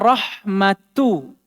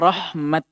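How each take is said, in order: First: A short vowel follows the final t. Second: The word ends abruptly on the t. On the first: The reader continues on without stopping. "Beliau contohkan kata rahmatu" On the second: The reader stops on this word. "Ketika kita wakaf, kata beliau dibaca rahmat"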